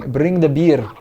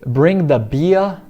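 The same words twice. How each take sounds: First: It is spoken in a Scottish accent, R trilled. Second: It is spoken in a southern British accent. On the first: "no sotaque escocês a gente vai transformar esse R no nosso R vibrante" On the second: "em inglês já estilo B B C"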